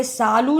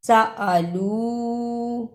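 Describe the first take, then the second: First: सालू in two quick syllables, no hamza; wrong merged vowel. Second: सअलू slowly, separate "sa-a" and long final oo; correct hamza. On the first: Teacher showing the mistake, quick सालू without hamza. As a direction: run the first vowel long, skipping the stop. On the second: Teacher giving correct form, slow softer सअलू. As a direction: break after स, then hold the लू. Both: Shown as a demonstration. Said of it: "इसे सालू नहीं पढ़ना".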